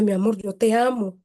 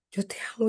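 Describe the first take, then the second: First: Said in the usual way. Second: Softer, tender repeat of yo te amo; a loving hush on the repeat. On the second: Retold or imitated. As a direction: let yo te amo sink to a soft reassurance. Mother comforting crying child.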